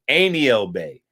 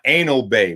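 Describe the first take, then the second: First: The first word sounds like 'aniel', three syllables. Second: The first word sounds like 'anal', two syllables. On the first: The speaker calls it right. "It's aniel bay" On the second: The speaker calls it wrong. "My, my bad if I pronounced it that way"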